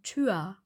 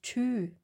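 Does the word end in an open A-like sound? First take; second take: yes; no. First: The word ends in an open A-like sound. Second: The word ends without an open A-like sound. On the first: The speaker calls it right. "wir sagen tür" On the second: The speaker calls it wrong. "Wir sagen auch nicht tü"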